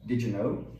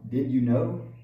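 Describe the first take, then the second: First: The stress is on know. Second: The stress is on you.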